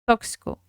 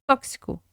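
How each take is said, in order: The two takes are said the same way.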